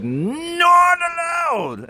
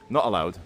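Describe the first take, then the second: First: Hammed-up English accent, swooping up to a shout; mock English accent. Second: Said in the usual way. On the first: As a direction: wail it in an exaggerated English accent. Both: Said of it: "in an English accent".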